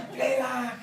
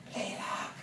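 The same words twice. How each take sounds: First: High, laughing retelling of a scared plea; higher, amused mock plea through laughter; laughing imitation. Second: Hushed, frightened whisper in the dark; whispered plea from a dark bedroom; scared whisper. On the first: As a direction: giggle through the quote. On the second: Retold or imitated. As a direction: breathe it out, too scared to speak aloud.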